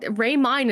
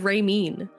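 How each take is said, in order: First: The second syllable rhymes with 'mine'. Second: The second syllable rhymes with 'mean'. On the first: The speaker calls it right. "is the correct way to say it" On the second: The speaker calls it wrong. "I get pissed when people call me Ray Mean"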